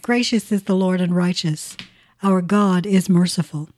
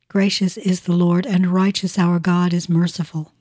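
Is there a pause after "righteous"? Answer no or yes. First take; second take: yes; no. First: There is a clear pause after "righteous". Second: It runs on with no pause after "righteous". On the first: Two separate statements about the Lord. The speaker calls it right. "Nothing like pausing at the old semicolon" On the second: God is called righteous and merciful in one run. The speaker calls it wrong. "Let me rephrase that"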